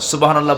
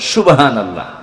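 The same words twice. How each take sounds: First: The first word starts with a clear s sound. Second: The first word starts without a clear s sound. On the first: The speaker calls it right. "সুবাহান আল্লাহ বলতে" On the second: The speaker calls it wrong. "স বলতে পারে না"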